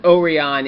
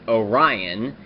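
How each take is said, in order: First: The name has a Japanese-style pronunciation. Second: The name has an American English pronunciation. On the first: "it was pronounced Orion in Kyuranger" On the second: "in America it would be pronounced Orion"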